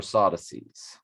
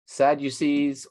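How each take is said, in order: First: Sadducees as SOD-uh-sees, open ah and no you; alternate pronunciation. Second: Sadducees with short SAD plus a long you: SAD-you-sees; pronunciation demo. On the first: Reader showing listeners both pronunciations, second variant SAH-duh-seez. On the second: Reader showing listeners both pronunciations, first variant SAD-you-seez. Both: Shown as a demonstration. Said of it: "It's pronounced that way in both directions".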